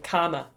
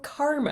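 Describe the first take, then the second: First: It has a strong Kiwi accent with silent R. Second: It is said with the R clearly pronounced. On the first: "if I was really being Kiwi, I would say karma" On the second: "Or karma if you pronounce your R's"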